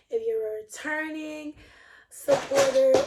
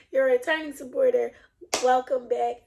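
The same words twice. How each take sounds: First: Pitched up and breaking toward a laugh; fumbled first take. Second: Said in the usual way. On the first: Real, not acted. Vlogger fumbling her welcome to returning viewers, half laughing. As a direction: stumble on it, then crack up. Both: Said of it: "oh shoot".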